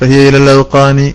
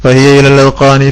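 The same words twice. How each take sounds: Both takes have the same delivery.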